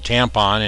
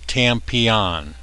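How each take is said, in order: First: The name is said with two syllables. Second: The name is said with three syllables. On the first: This is how other people say it. "Or as some pronounce it" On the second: This is the owner's own pronunciation. "Tampion is how he pronounces it"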